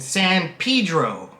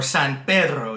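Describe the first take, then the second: First: It is pronounced with an English accent. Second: It is pronounced with a Spanish accent.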